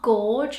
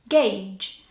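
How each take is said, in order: First: The U is sounded. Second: The U is silent. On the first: The speaker calls it wrong. "not gorge, how I sometimes want to say gauge" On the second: The speaker calls it right. "it has a silent U, so you say it gauge"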